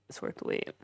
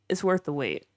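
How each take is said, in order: First: Near-whispered, soft repeat; softly echoed, almost without voice; hushed aside. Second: Said in the usual way. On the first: Real, not acted. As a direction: drop it to a whispery undertone.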